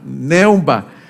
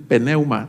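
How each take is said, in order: First: The word begins directly with an N sound. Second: The word begins with an audible P sound. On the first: The speaker calls it right. "la P es muda" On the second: The speaker calls it wrong. "no tienes que decir pneuma"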